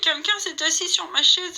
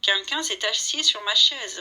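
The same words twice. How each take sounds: First: It is said in a small, whining voice. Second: It is said in a medium voice.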